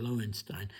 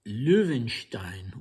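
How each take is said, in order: First: The name is pronounced in an English way. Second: The name is pronounced in a non-English way.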